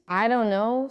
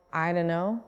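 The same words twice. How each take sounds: First: "I don't know" with the t sounded; three clear words, don't with its t; careful, unreduced "I don't know"; full form. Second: "I don't know" run together as I dunno; casual blended "I don't know"; reduction. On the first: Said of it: "sounds like". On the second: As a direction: drop the t, say "I dunno". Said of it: "These are called reductions". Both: Shown as a demonstration.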